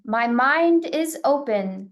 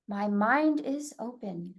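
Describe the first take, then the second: First: It is spoken loudly. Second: It is spoken softly and gently. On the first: "first loudly" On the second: "a bit softer, gentler in a speaking voice"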